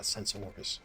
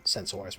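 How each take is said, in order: First: Said in the usual way. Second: "sensors" with a full, drawn-out "sors" ending, like "sen-sores"; odd sensors. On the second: Real, not acted. Streamer mid-rant catches himself mangling a word, "sensors" said oddly. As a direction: stumble on "sensors", giving the last syllable a full "sores" vowel. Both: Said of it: "why did I say it like that?".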